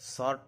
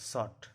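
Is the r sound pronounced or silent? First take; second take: pronounced; silent. First: The r sound is clearly pronounced. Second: The r sound is left silent. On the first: The speaker calls it wrong. "शॉर्ट नहीं बोला जाता" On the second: The speaker calls it right. "आर का उच्चारण नहीं होता है"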